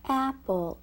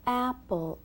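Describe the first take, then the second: Both takes have the same delivery.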